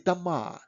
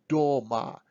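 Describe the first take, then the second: First: The first vowel sounds like an 'a'. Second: The first vowel sounds like a full 'o'. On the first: The speaker calls it right. "we say; we pronounce it as a kind of "a"" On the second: The speaker calls it wrong. "we don't say"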